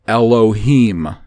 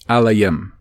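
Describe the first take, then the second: First: It is said with the Masoretic pronunciation. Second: It is said with the Oberi pronunciation. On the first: "the Masoretic pronunciation" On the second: "in the Oberi pronunciation it would be Alayim"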